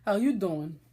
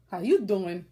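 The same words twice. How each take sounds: First: A hammed-up Brooklyn "How you doing?" with "you" leaned on; Brooklyn greeting again. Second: Louder Brooklyn "How you doing?" with a stretched "you"; Brooklyn greeting. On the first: Telling viewers she's Brooklyn, in a Brooklyn accent. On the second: Retold or imitated. Repeating a yarn seller's greeting, in a Brooklyn accent. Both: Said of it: "'Cause I'm Brooklyn".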